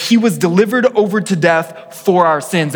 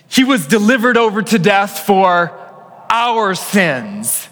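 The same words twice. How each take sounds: First: Said in the usual way. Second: "our" lifted and leaned on, voice raised throughout; stress on our. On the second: Shown as a demonstration. Pastor leads congregation reading, stressing "our". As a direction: hit "our" hard as the congregation reads along. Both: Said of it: "I want you to emphasize that hour".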